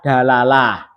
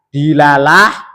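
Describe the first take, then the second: First: The first vowel is an a sound. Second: The first vowel is an i sound. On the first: "bisa di fathah" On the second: "Dalnya itu bisa di kasrah"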